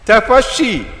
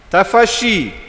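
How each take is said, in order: Both takes have the same delivery.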